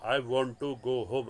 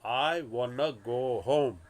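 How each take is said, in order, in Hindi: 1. 'want to' दो पूरे शब्दों की तरह बोला जाता है। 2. 'want to' जुड़कर 'wanna' बोला जाता है। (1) "सिंपल इंग्लिश में" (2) "स्लैंग में या तो एकदम फास्ट वाली भाषा में"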